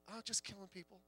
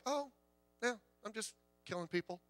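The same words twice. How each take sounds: First: Hushed, careless repeat of the shooter's words; chillingly casual. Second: Chillingly casual. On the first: Preacher echoing the shooter's words to the congregation, softly and offhand. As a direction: echo "just killing people" softly and offhand, much softer, as if it were nothing. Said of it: "like it was a game". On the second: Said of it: "very calmly". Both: Retold or imitated.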